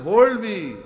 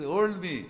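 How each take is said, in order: First: Loud plea. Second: Said in the usual way. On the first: Acted. Preacher voicing Pharaoh's real meaning, loud shout. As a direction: Hold me shouted much louder. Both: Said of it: "in the truth he says".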